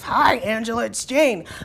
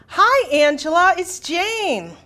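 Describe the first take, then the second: First: It is said in a gruff voice. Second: It is said in a normal voice.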